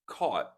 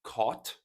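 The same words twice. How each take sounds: First: "caught" ending on an unreleased, silent T. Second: "caught" with a crisp released final T; fully sounded T. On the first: Teacher models natural speech for learners, "caught" with silent T. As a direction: hold back the T in "caught". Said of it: "again the silent or flap T". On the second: Teacher shows learners what not to say, "caught" with sounded T. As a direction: pop the T at the end of "caught". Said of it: "not caught". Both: Shown as a demonstration.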